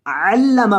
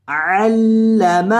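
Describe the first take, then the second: First: علم with a hard doubled ل; doubled lam. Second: علم said without the doubled ل; wrong reading. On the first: Teacher showing the correct doubled ل in علم. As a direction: press the ل of علم firmly. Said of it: "لام کو سختی کے ساتھ پڑھنا". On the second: Teacher showing students a wrong علم. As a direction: say علم with a light single ل, the mistaken way. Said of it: "علم نہیں". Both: Shown as a demonstration.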